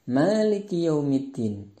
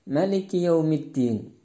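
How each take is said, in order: The two takes are said the same way.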